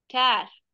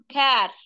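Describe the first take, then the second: First: The k and vowel sound fronted and light. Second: The k and vowel sound fronted and light.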